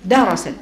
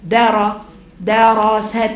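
First: درست with the s opened: da-ra-sat; درست said darasat, fatha on the sīn; reading darasat. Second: دراست with a long ā after the d; دراست said as dārast, spelled out slowly; reading dārast. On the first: (درست بفتح السين: دَرَسَت) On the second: (دراست بمد الدال: دارَسْت) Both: Shown as a demonstration. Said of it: "فتح السين".

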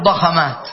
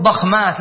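First: ضخمات as ḍa-kha-māt, extra a after kh; wrong middle vowel. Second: ضخمات as ḍakh-māt, first syllable closed; correct unvowelled middle. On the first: Teacher shows what we don't say, ضخمات as ḍa-kha-māt. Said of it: "لا نقول ضخمات". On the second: Teacher repeats what we say, ضخمات as ḍakh-māt. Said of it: "نقول ضخمات". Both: Shown as a demonstration.

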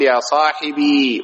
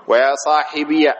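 First: "صاحبي" slowly, ending in long ee; silent final ya. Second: "صاحبي" slowly, ending in -iya; voweled final ya. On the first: Teacher showing the original form, "صاحبي" with long still ya. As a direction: draw out "صاحبي" as sahibii. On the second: Teacher showing second form, "صاحبي" with ya carrying a fatha. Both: Shown as a demonstration. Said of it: "وبالياء ساكنة ومفتوحة".

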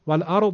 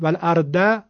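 First: "والارض" with a thick, emphatic d; correct heavy Dad. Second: "والارض" with a light, plain d, "al-arda"; wrong thin d. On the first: Teacher showing students the correct way, heavy d. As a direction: thicken and darken the d ending "والارض". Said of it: "اما اگه بخوایم بگیم، بگید والارض". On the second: Teacher showing students the mistake, thin d. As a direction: say "والارض" with a thin dal, no heaviness. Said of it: "خب این که دال شد". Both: Shown as a demonstration.

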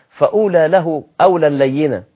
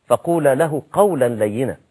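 First: Louder, قولا له slurred into فأولى له; wrong recitation. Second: فقولا له said clearly, each word apart; correct recitation. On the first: Preacher imitating a careless reciter of the verse, louder. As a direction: misread the verse loudly, words run together. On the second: Preacher giving the correct reading of the verse, carefully. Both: Shown as a demonstration. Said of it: "ما ينفعش".

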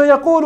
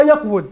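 First: Said in the usual way. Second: "يقول" said yaq-wul; original form. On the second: Shown as a demonstration. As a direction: close the qaf and sound wul in "يقول". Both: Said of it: "وأصلها".

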